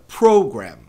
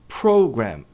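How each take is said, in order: First: The stress is on the first syllable. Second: The stress is on the first syllable.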